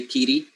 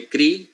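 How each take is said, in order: First: "kiri" split into kee-ree; inserted E sound. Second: Said in the usual way. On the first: Shown as a demonstration. Teacher correcting kri to the Samoan form, inserted vowel. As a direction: put an "ee" between k and r in "kiri". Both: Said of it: "you say kiri".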